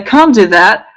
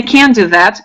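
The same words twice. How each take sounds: First: The vowel in can't is deep, from the throat. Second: The vowel in can't is nasal, through the nose. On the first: "If you cannot say I can't do that" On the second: "saying can't and in your nose here"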